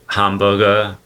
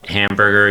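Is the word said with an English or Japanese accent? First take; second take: Japanese; English. First: It is said with a Japanese accent. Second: It is said with a plain English accent.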